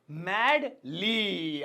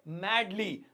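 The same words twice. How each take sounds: First: "madly" very slowly, both syllables held; drawn-out repetition. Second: Said in the usual way. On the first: Shown as a demonstration. Teacher introducing the next adverb to students, drawn out.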